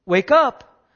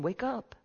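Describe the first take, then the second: First: Loud, higher-pitched rousing call; crying out. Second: Soft, higher-pitched retold call; calling to wake. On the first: Retold or imitated. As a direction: call out hard to wake the sleeper. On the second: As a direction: call gently to a sleeper, softly. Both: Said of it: "he's crying and he's calling".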